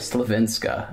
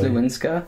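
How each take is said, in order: First: The second syllable starts with a V sound. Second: The second syllable starts with a W sound. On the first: The speaker calls it right. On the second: The speaker calls it wrong.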